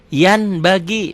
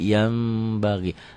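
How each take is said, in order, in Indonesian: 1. Bunyi n tetap dipertahankan sebelum b. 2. Bunyi n berubah menjadi m. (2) "dibacanya jadi"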